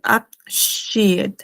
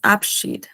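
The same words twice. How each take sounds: First: The 'ie' is said as two separate vowels. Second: The 'ie' is said as one long i. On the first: The speaker calls it wrong. "acá no se pronuncia Abschied" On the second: The speaker calls it right. "es Abschied"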